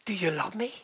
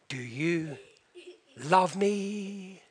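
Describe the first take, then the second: First: Whispered echo in disbelief; incredulous whisper. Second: Soft, lowered voice, hesitant; tender question. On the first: Wife whispering his question back, stunned. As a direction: breathe it back, astonished. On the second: Husband repeating his question to his wife, soft. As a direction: ask it quietly, holding back. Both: Retold or imitated.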